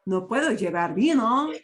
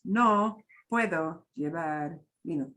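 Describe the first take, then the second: First: Louder, lilting "No puedo llevar vino", VINO swung upward; up-and-down intonation. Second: Monotone, word-by-word "No puedo llevar vino", low and unvarying; no intonation. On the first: Teacher shows learners the intonation to copy, up and down. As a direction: swing the pitch up and down through to VINO. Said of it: "your voice to go up and down". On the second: Teacher shows learners how not to repeat it, monotone. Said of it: "don't repeat it as". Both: Shown as a demonstration.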